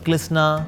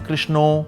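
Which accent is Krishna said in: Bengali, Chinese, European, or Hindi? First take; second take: Chinese; Bengali. First: It is said in a Chinese accent. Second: It is said in a Bengali accent. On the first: "somebody is Chinese so क्लिस्ना" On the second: "से बंगाली से कृष्णो"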